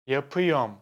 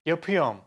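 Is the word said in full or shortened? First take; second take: shortened; shortened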